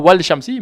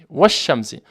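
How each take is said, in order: First: An L sound is said before the sh. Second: The L merges into a doubled sh. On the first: The speaker calls it wrong. "On dira pas wal shamsi" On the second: The speaker calls it right. "mais on dira wash shamsi"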